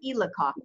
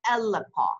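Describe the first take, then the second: First: The word begins with an 'i' vowel. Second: The word begins with an 'a' vowel. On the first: The speaker calls it wrong. "Not ilaka" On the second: The speaker calls it right. "Ila alaka"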